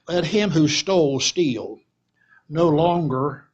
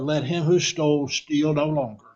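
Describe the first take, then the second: First: There is a pause right after 'steal'. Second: There is a pause right after 'no longer'. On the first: The thief should keep stealing instead of working. "Let me read it a different way" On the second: The thief should stop stealing. "But he says"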